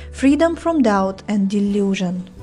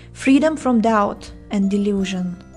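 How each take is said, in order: No difference in how they are said.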